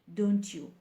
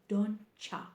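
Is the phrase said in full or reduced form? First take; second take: full; reduced. First: The second word is a full 'you'. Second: The second word is reduced to 'ya'. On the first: The speaker calls it wrong. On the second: The speaker calls it right.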